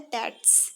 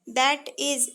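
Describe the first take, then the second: First: It is contracted into one syllable, that's. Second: Two full words are said, that and is. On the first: "short form होता है ... जिसे बोला जाता है दैट्स"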